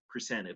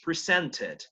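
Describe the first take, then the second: First: American pronunciation with the middle T nearly silent. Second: British pronunciation with the middle T clearly sounded. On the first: "but usually presented. La T no suena prácticamente" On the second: "For British"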